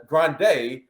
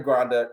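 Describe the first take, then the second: First: Corrected to "Grande" as GRAHN-day; Grande ending in -day. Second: "Grande" as GRAHN-duh; Grande ending in -duh. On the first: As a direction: say "Grande" with a clear final "day". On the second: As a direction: say "Grande" with a weak final "duh". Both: Real, not acted.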